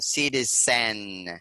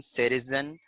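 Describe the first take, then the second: First: The final syllable has a full, clear vowel. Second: The final syllable has a weak schwa vowel. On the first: The speaker calls it wrong. "it's not right if we read this word like" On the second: The speaker calls it right. "since it's a sure sound"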